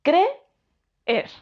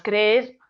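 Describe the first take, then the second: First: Creer muy lento, "cre", pausa, "er"; separado en sílabas. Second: Creer en un solo golpe, como "crer"; vocales en una sílaba. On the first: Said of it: "decimos creer". (creer silabeado despacio, con hiato marcado) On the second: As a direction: junta las dos es de creer en una. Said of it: "No decimos creer". (creer sin separar las vocales, una sílaba) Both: Shown as a demonstration.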